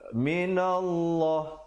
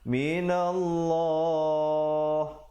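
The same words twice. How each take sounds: First: The final vowel is cut short at the stop. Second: The final vowel is held for two beats. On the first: The speaker calls it wrong. "Jangan pula kita berhenti minallah. Salah" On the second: The speaker calls it right. "Dia kena berhenti sekurang-kurangnya minallah"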